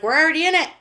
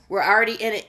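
First: Raised, higher quoted exclamation; quoting emphatically. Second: Said in the usual way. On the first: Retold or imitated. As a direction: call it out insistently, as someone else's line. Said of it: "he's like".

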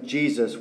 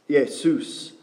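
First: Said in the usual way. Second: Jesus said "Yesous", Greek style with a Y sound; Greek pronunciation. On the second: Shown as a demonstration. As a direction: pronounce Jesus the Greek way, "YES-ous". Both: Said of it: "the Greek for Jesus is".

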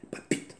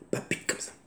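First: Clipped repeat. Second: Soft repeat. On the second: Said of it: "qui palpitent sur mes lèvres". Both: Shown as a demonstration.

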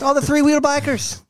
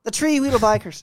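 First: High, loud put-on Irish accent; Irish lilt with "three-wheel" keeping its th sound. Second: Irish "three" said as "tree", pitched high; Irish accent. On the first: Friend filling in his pub joke, high Irish accent. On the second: Pretend. Friend repeating his pub joke, broader Irish accent. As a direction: put on an Irish brogue, "three-wheel" becoming "tree-wheel". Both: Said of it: "Why is your Irish accent so good".

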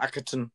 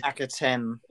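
First: Akhaten with a swallowed, reduced last syllable; Akhaten, final vowel reduced to "uh"; mistaken pronunciation. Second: Akhaten with a clear, full TEN ending; Akhaten, last syllable rhyming with "pen"; corrected pronunciation. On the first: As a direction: say Akhaten ending in a weak "tun". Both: Shown as a demonstration. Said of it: "not Akhaten".

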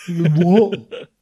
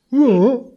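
First: A flat, dull "What?" dropping at the end like a dim lout; mock the thick kid with a dull grunted "What?". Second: "What?" pitched much higher and a bit louder, rising like a clueless lout; high gormless what. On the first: Teacher mocking a pupil, a dull grunted "What?". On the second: Retold or imitated. Teacher mocking a pupil, a high gormless rising "What?". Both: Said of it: "You don't sound like a thick inbred".

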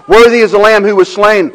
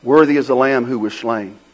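First: Worthy belted, high and loud; preaching at full force. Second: Said in the usual way. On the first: Acted. Pastor proclaiming Worthy to the church, full-force preaching. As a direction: shout out Worthy like a hymn of praise.

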